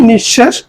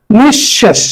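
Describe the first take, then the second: First: Said in the usual way. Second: "নিঃশেষ" split nish-shesh, with a falling end; pronunciation demo. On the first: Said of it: "তাহলে আরেকবার দেখি". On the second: Shown as a demonstration. Teacher reviewing for students, "নিঃশেষ" pronounced carefully as nish-shesh. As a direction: hold the doubled sh in "নিঃশেষ". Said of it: "উচ্চারণ আসলে নিঃশেষ".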